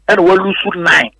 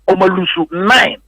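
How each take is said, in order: First: Said in the usual way. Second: "we lose nine" said slowly, each word weighted, "nine" rising; slow down and lean on "nine"; emphasis on nine. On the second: Shown as a demonstration. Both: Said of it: "The, the emphasis is on how many matches are".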